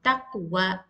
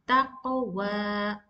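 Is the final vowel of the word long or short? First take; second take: short; long. First: The final vowel is short, held one count. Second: The final vowel is long, held two counts. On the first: "you will pronounce as one count" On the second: "you need to prolong the sound by two counts"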